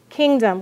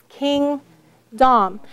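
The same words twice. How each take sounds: First: The second vowel is a reduced, lazy schwa. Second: The second vowel is pronounced fully and clearly. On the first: This is how the word is normally spoken. "Which one is being lazy? Dumb. You hear a" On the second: This pronunciation helps with spelling the word. "But we will say to spell during spelling analysis"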